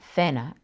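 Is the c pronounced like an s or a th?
th. The c sounds like a th. "pronounced cena in Spain"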